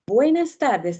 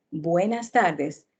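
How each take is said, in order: First: "buenas tardes" lifted high and louder, punching "buenas" and falling; an energetic opening "buenas tardes" for an audience; bright loud greeting. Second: "buenas tardes" dropped low and slowed right down, falling on "tardes"; calm, low, unhurried "buenas tardes"; low slow greeting. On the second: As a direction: sink the pitch and stretch "buenas tardes". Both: Shown as a demonstration. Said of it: "Por ejemplo".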